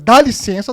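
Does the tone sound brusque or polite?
brusque. It is said in a brusque, startling tone. It sounds like a rude demand. The speaker calls it wrong. "dá licença tá errado"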